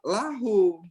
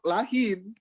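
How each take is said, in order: First: The vowel after the h is u. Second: The vowel after the h is i. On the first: The speaker calls it right. "Tapi bacanya apa?" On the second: The speaker calls it wrong. "Seharusnya bacanya lahim"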